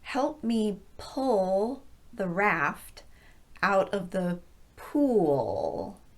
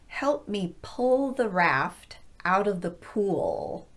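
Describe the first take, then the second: First: The sentence is spoken very slowly. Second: The sentence is spoken a bit faster. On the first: "very slowly the first time" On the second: "a little bit faster the second time"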